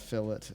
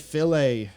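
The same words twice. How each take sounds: First: It is said the way locals pronounce it. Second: It is said the way Americans pronounce it. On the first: "fillet is, um, is is what is said here" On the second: "Americans say fillet"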